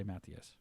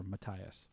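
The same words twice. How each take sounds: First: Matthias said MATH-ee-us; chosen pronunciation. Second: Matthias said muh-TIE-us; alternative pronunciation. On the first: Streamer settling on a viewer's name, Matthias as MATH-ee-us. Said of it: "we're just gonna say Matthias". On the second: Streamer offering a viewer the other option, Matthias as muh-TIE-us. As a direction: say Matthias with hard T and long I. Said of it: "Or Matthias". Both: Shown as a demonstration.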